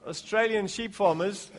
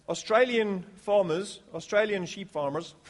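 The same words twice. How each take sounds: First: Said in the usual way. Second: Badly attempted Australian accent. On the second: Shown as a demonstration. Preacher joking about sheep farmers, bad Australian accent. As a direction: have a clumsy go at sounding Australian. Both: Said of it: "my worst attempt at an Australian accent".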